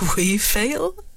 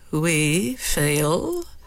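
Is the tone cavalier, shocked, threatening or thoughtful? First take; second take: cavalier; threatening. First: It sounds cavalier. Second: It sounds threatening.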